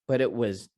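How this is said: The word but is light and reduced. "he's he's just using it in a very minimal way"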